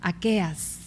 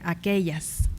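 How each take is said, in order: First: The double-L sound is dropped entirely. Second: The double-L sound is clearly pronounced. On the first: "aqueas, ¿no? En vez de aquellas" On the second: "En vez de aquellas"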